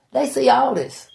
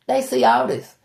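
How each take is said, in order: Both takes have the same delivery.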